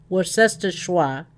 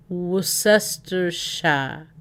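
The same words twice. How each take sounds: First: Worcestershire said a bit slowly as "wor-sester-shwa"; second pronunciation attempt. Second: Worcestershire sounded out very slowly as "wuh-sester-sha"; dropped first R. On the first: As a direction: try Worcestershire with a "shwa" ending. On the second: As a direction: say Worcestershire slow and soft, no R in "Wor". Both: Shown as a demonstration. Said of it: "Don't say the R".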